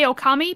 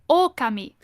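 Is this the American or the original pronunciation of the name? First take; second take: American; original. First: The name is said the American way. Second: The name is said the original, non-American way. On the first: This is the habitual anglicized way of saying it. "that's the American way to say it" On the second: This is how the name really is said. "It's it's it's actually Okami"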